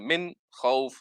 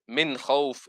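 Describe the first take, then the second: First: There is a slight pause after the first word. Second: The two words run together without any pause. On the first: The speaker calls it wrong. "What they do is to stop slightly on the min" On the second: The speaker calls it right. "it should be continuous"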